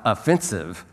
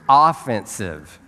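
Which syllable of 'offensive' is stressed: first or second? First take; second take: second; first. First: The stress is on the second syllable. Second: The stress is on the first syllable. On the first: Insulting or rude. The speaker calls it wrong. "It's not offensive" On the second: Going on the attack, as in sports. The speaker calls it right. "It's offensive"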